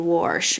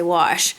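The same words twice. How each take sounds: First: It is said with a Midwest pronunciation. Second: It is said with a standard pronunciation. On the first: "here in the Midwest, sometimes we say wash" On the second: "I always say wash"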